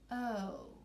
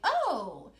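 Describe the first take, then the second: First: It sounds disappointed, not excited. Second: It sounds excited and lively.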